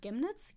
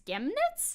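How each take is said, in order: First: Questioning try at Saxon "Chemnitz", higher, rising; unsure Saxon accent on "Chemnitz"; tentative Saxony accent. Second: Much higher, questioning Saxon "Chemnitz"; exaggerated Saxon try at "Chemnitz", rising; stronger Saxony accent attempt. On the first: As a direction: test "Chemnitz" as a Saxon might say it. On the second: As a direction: push "Chemnitz" up high in a mock Saxon accent. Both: Shown as a demonstration. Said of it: "how do they say Chemnitz?".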